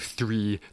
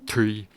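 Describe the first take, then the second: First: It begins with a soft th sound. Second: It begins with a dental stop. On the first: "instead of saying like a th or a the sound" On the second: "will say a dental stop instead"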